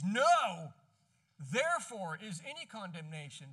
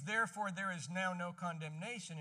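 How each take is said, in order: First: "No" shouted out loud, then a pause; stress on No. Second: Said in the usual way. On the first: Shown as a demonstration. Preacher showing the Greek word order, "No" punched first. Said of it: "In Greek, it reads". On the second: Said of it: "In English, it reads".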